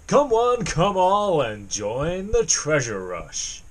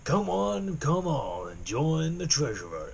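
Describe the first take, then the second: First: A plain American voice with no added age. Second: An American voice made to sound older. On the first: "were it just to be a generic American accent" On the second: "I need to kind of age it a bit"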